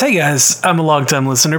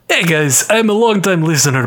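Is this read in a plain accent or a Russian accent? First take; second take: plain; Russian. First: It is read in the speaker's normal accent. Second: It is read in a put-on Russian accent.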